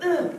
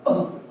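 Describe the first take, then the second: First: High, tight "uh" from the throat; high-pitched short "uh"; wrong unsupported grunt. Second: Short breathy "uh" punched from the belly; quick unpitched belly grunt; diaphragm grunt. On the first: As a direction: grunt without the belly behind it. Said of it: "instead of". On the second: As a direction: let the air burst from the gut. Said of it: "you know, it'll come". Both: Shown as a demonstration.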